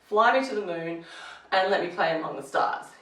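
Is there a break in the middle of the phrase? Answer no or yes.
yes. The phrase is broken by a pause partway through. The speaker calls it wrong. "you wouldn't say"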